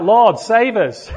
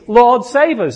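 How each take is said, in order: First: Slow, raised half-joking plea; mock cry for rescue. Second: Louder, higher heartfelt plea; earnest cry. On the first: Pastor joking to the church, a mock desperate plea. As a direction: ham up a desperate prayer over a bad joke. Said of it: "I, I cried out". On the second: Real, not acted. Pastor calling out to the congregation, an earnest loud plea. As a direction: cry it out like a real prayer. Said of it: "my cry is".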